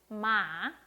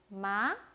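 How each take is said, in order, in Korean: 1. 음이 올라갔다가 빠르게 떨어집니다. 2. 음이 가볍게 올라갑니다. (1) "올렸다가 빨리 내려주시면 됩니다" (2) "가볍게 올라갔죠?"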